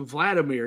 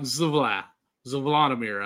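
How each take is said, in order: First: The name begins with a plain V sound. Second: The name begins with a Z sound before V. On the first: "I want to say Vladimir because it's got the V" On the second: "there's also that Z at first. So I'm like Zvladimir"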